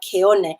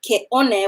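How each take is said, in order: First: The word flows smoothly with no glottal stop. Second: A glottal stop breaks the word between ke and one. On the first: The speaker calls it right. "We have keone" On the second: The speaker calls it wrong. "with that glottal stop in, in between"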